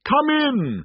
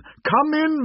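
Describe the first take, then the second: First: Booming cheerful giant call; cheerful spirit. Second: High booming welcome; cheerful spirit. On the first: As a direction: call out warmly to a guest. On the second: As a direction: repeat the welcome even bigger. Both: A narrator's reading. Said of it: "called out cheerfully".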